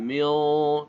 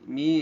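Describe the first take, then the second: First: The final consonant is pronounced clearly. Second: The final consonant is hidden and nasal. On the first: The speaker calls it wrong. "jangan mil" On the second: The speaker calls it right. "tapi mi"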